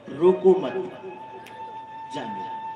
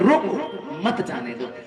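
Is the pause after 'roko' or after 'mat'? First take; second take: after mat; after roko. First: There is a pause after mat. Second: There is a pause after roko.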